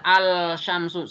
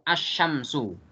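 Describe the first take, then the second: First: "al syamsu" with a drawn-out L before sh; wrong reading, L pronounced. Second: "asyamsu" with no L, straight into sh; correct assimilated reading. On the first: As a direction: sound the L separately in "al syamsu". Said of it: "nggak boleh dibaca". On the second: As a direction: double the sh in "asyamsu", L silent. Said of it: "Jadi langsung". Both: Shown as a demonstration.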